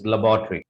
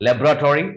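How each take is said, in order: First: Laboratory said as "luh-BAW-tree"; second pronunciation. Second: Laboratory as "LEB-ra-tori", higher and rising; first pronunciation. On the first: Teacher recapping the second option, carefully modelled. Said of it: "second हमारे पास है". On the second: Teacher recapping the first option, carefully modelled. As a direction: say laboratory with a full "tori", lifted. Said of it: "The first is". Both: Shown as a demonstration.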